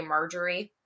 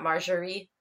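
First: "Marjorie" said the English way, hard j; English pronunciation. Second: "Marjorie" said the French way, soft zh; French pronunciation. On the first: Podcaster quoting the actors, "Marjorie" in English pronunciation. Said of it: "then they say Marjorie". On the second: Podcaster correcting the film, "Marjorie" in French pronunciation. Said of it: "and not Marjorie". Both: Shown as a demonstration.

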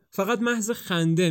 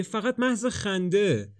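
First: Said in the usual way. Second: فقط محض خنده drawn out slow, pitched up; slow, high coaxing repeat of فقط محض خنده; slow pleading. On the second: A narrator's reading.

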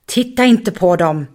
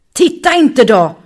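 First: Firm voice. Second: Loud, high, angry roar. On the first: Muffin förbjuder Bonki att titta, bestämt. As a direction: lay down the rule calmly but firmly. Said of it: "Muffins bestämda röst". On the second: Muffin ryter åt Bonki som vänder huvudet, argt. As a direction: roar the warning at her. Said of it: "röt Muffin". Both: Acted.

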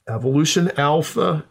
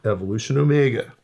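First: "alpha" lifted high, set against omega; "evolution alpha" raised, then "omega" drops; stress on alpha. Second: Quicker "evolution omega" dropping at the end; falling on omega. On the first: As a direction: lean up on "alpha". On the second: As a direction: let "omega" fall away. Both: Shown as a demonstration.

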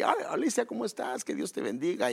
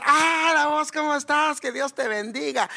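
First: Higher, polite cheerful greeting hiding anger; friendly facade greeting. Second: Much higher, booming cheerful hello everyone hears; loud extrovert greeting. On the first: Shown as a demonstration. Upset man greeting Alicia kindly anyway, polite cheerful facade. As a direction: put on a pleasant face for Alicia. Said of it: "eso es mi personalidad". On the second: Retold or imitated. Extrovert church sister arriving and greeting everyone, loud and bubbly. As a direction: announce yourself to the whole room. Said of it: "el extrovertido es".

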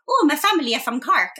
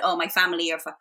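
First: High, put-on Irish lilt; stage-Irish accent, pitched up; exaggerated Irish accent. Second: Said in the usual way. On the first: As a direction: mimic an over-the-top Irish accent. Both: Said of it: "This is not a real accent".

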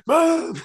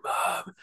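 First: High, louder mock cry for mum; imitating friend's scream. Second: Voiceless, soft imitation of a failed scream; strangled scream attempt. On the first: Mimicking a mate acting out the horror scene, high mock scream. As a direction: squeal "Mom" as a hammed-up impression. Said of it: "my mate Steve going". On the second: Stabbed girl trying to call her mum, strangled whisper. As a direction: try to scream "Mom" with no voice. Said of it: "trying to scream for her mum".

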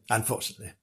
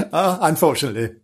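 First: Mock sorrow, almost under the breath; soft mock-sad aside. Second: Said in the usual way. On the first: Storyteller to children, softly mock-regretful repeat. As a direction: drop to a hushed, rueful repeat.

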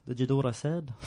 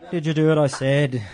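First: Put-on unintended Liverpool accent. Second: Put-on Liverpool accent. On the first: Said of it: "He's a Beatle now". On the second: Pastor redoes the priest's line in a Liverpool accent. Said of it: "He's a Beatle now. He's from Liverpool".

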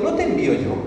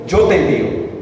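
First: Pregunta enfática. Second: Said in the usual way. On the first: Shown as a demonstration. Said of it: "el escritor agregó diciendo". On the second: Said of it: "Podía haber dicho".

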